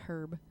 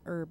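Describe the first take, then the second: First: The word starts with an audible h sound. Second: The word starts with a vowel, no h sound. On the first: "and not herb" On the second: "they say it as herb"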